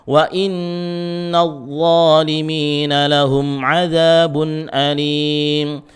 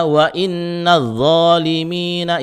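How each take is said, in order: First: Slow, higher chant of "Wa inna zalimina", the z heavy; dark emphatic first sound in "zalimina", drawn-out melody; thick dha recitation. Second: Higher chanted "wa inna zalimina" with a light th sound; thin zal at the start of "zalimina"; wrong zal reading. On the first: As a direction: recite "zalimina" with raised tongue back, stretching the long vowels. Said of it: "Pangkal lidahnya naikkan". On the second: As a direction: show the mistake, "zalimina" without thickening. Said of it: "Jangan dibaca". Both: Shown as a demonstration.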